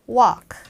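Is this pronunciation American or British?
American. It is said short in an American accent. "미국 발음으로는 walk 이렇게 짧게"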